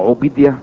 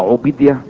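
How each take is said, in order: First: The second syllable has an 'ee' vowel. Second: The same.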